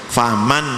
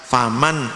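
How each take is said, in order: The two takes are said the same way.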